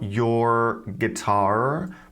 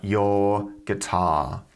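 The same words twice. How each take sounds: First: The final r sounds are pronounced. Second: The final r sounds are dropped. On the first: The speaker calls it wrong. "Not your guitar" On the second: The speaker calls it right. "but your guitar"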